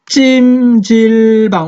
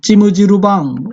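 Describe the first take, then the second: First: Final consonants are cut off crisply, no added vowels. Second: Extra vowels follow each final consonant. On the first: "우리는 찜 딱 끊는단 말이야" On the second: "일본은 찜우 뒤로 돌려버리지"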